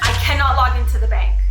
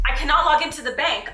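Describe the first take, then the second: First: Panicked. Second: Said in the usual way. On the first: Real, not acted. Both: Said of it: "I'm freaking out".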